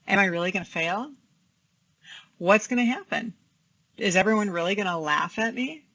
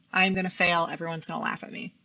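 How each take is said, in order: First: Reasoning through the worry calmly; calm questioning. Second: Quick, worried self-talk; catastrophizing inner voice; anxious thought. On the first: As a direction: gently question the fear, with pauses between. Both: Shown as a demonstration. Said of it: "let's talk about how we can decatastrophize".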